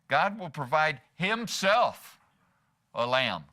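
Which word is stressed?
himself. The word himself carries the main stress. God will offer himself as the sacrifice. "meaning that God is going to provide himself, himself"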